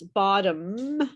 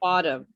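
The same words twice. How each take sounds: First: The final M sound is fully pronounced. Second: The final M sound is weak and incomplete. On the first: The speaker calls it right. "I pronounce bottom" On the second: The speaker calls it wrong. "you don't fully pronounce it"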